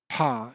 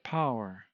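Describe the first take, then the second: First: The vowel is squeezed into one short glide. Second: The vowel keeps its full three-part glide.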